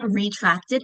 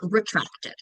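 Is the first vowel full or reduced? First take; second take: full; reduced. First: The first vowel is a full vowel. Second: The first vowel is reduced to schwa. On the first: The speaker calls it wrong. "it's not retracted" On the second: The speaker calls it right. "you're going to hear them actually schwa"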